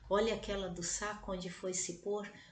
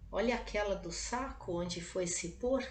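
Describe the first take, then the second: First: It is a solemn, prayerful recitation. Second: It is a quiet, gossiping aside. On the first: It is a prayer. "rezar diante do Santíssimo" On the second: It is a remark about an annoyance. "disse baixinho à amiga"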